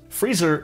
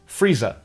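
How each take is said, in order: First: It is said with a North American R at the end. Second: It is said Cockney style without a final R.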